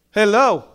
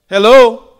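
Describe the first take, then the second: First: Said in the usual way. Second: Loud, high call of hello. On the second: Real, not acted. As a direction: call hello loudly into the room. Preacher calls out to congregation.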